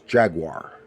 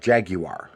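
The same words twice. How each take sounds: First: It is said in a non-British accent. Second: It is said in a British accent.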